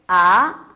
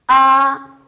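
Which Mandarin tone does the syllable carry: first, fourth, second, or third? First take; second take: second; first. First: The pitch rises from mid to high. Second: The pitch stays high and level. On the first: "이성" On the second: "일성은 이렇게 얘기해요"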